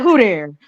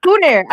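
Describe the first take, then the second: First: "Who there?" loud, with "Who" stressed; certain tone. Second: "Who" hit hard, falling on "there"; certain tone. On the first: Guest repeating the coded "Who there?". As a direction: bark out "Who there?" with a fall. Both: Shown as a demonstration. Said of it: "you say it in a certain tone".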